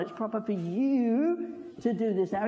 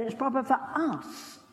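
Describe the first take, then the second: First: "you" leaned on as the wrong word; the word "you" pressed firmly, the rest plain; stress on you. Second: "us" leaned on and held at the end; the word "us" pressed, higher, the rest plain; stress on us. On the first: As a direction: hit "you" in "proper for you". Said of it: "He didn't say to John". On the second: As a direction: land firmly on "us" in "proper for us". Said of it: "did you notice that little word, "us". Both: Shown as a demonstration.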